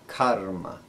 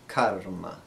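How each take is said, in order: The two takes are said the same way.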